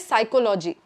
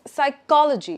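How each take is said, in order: First: The stress is not on the second syllable. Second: The stress is on the second syllable. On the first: The speaker calls it wrong. "a lot of Indians might say psychology" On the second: The speaker calls it right. "It's a ko, ko, that's stress"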